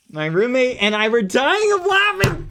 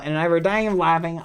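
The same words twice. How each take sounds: First: High, hammed-up exclamation; mock outburst. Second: Said in the usual way. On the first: Streamer reacting to viewers laughing at him, high mock outrage. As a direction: let the pitch climb into mock outrage.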